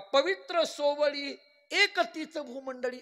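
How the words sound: The pause comes before 'ek', joining it to after.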